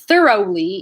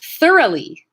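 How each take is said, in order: First: The middle vowel is a long, gliding sound. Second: The middle vowel is a short, steady sound. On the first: The speaker calls it wrong. "it would take you a little bit too long" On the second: The speaker calls it right. "it makes the diphthong at the end into a monophthong"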